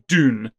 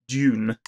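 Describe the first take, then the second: First: It is said with an American pronunciation. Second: It is said with a non-American pronunciation.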